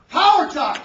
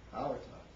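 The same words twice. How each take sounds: First: Booming, very loud slogan; forceful power pitch. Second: Low, soft, lifeless slogan; sleep-inducing delivery. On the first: Speaker demonstrating body language to the workshop, booming. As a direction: belt out POWER TALK like a stage speaker. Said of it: "how about this body language". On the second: Speaker showing poor vocal variety, low and soft. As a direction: say POWER TALK as if putting the room to sleep. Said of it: "fall asleep". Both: Shown as a demonstration.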